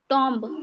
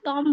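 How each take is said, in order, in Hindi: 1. b की ध्वनि बोली जाती है। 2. b की ध्वनि मौन है। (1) "टॉम्ब बोलते थे" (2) "टॉम बोलते हैं ना"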